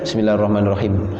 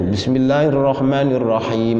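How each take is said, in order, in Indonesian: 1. Vokal sebelum m terakhir dibaca pendek. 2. Vokal sebelum m terakhir dibaca panjang. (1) "tidak boleh bacanya ... membuang satu huruf" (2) "Ada yaknya enggak tuh? Itu minimal satu alif dua harokat"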